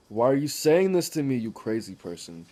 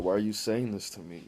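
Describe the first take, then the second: First: Higher and louder, exasperated; imitating his own exasperated outburst; mock outraged yell. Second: Said in the usual way. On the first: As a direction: blurt it out, fed up with small talk. Retold outburst at small talk.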